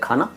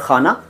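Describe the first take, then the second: First: It begins with an aspirated stop k sound. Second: It begins with a raspy fricative kh sound. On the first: It means food. "खाना food" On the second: It means a place or compartment. "खाना जगह"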